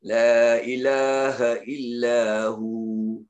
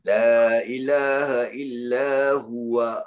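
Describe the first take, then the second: First: It ends on a held 'hu' of two counts. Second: It ends with the full syllables 'huwa'. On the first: The reader stops at this point. "Kalau berhenti jadi dua rakaat" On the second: The reader continues into the next words. "kena baca huwa pula kalau nak sambung"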